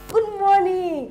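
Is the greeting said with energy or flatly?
energy. It is said brightly, with lots of energy.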